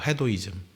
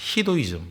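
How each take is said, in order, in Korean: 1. 첫 모음은 'eh' 소리가 나요. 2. 첫 모음은 'ee' 소리가 나요. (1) "원래는 헤도예요" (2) "미국 애들은 또 헤도이즘에 발음하죠. 히도이즘, 뭐 이렇게 발음하는데"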